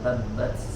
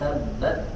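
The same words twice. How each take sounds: First: The t is released with a hissing s sound. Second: The t is released with only a light breath. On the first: The speaker calls it wrong. "ya tidak ada s-nya, bukan tabbat" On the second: The speaker calls it right. "tapi tabbat, ya ada angin sedikit saja"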